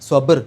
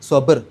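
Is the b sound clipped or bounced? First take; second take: bounced; bounced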